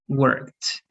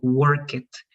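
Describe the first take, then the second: First: The ending is said without an extra syllable. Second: The ending is said as an extra syllable. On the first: The speaker calls it right. "so it's going to be learned, worked" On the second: The speaker calls it wrong. "it's not the correct pronunciation"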